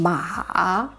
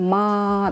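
First: The pitch dips low and then rises. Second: The pitch stays high and level throughout. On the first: "А третий тон" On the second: "«ма» – это первый тон, ровно говорим, держим своим голосом"

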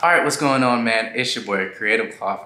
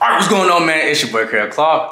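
First: It is said more calmly. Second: It is said with more energy.

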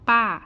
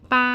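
First: The pitch falls sharply from high to low. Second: The pitch stays high and level.

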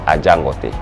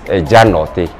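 First: The name is said in its corrupted form, Ajangote. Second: The name is said in its original form, Ejanote. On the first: This is the altered modern form of the name. The speaker calls it wrong. "presently corrupted to be known as Ajangote. It is not Ajangote" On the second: This is the original form of the name. The speaker calls it right. "It's Ejanote"

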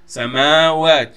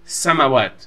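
First: The vowel after the m is long. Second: The vowel after the m is short. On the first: The speaker calls it right. "has this double A in here" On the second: The speaker calls it wrong. "You don't pronounce it samawat. It's not a single A in here"

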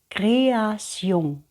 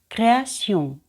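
First: The word is said slowly. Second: The word is said faster. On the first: "Перший раз я читаю повільно" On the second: "за другим разом я роблю це швидше"

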